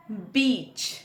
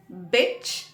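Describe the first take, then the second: First: "बीच" with a long ee. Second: "बिच" with a short i. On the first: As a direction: stretch the vowel in "बीच". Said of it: "Hindi शब्द बीच". ("बीच" में बड़ी ई की मात्रा) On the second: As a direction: keep the vowel brief in "बिच". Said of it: "आई है". ("बिच" में छोटी इ की मात्रा) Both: Shown as a demonstration.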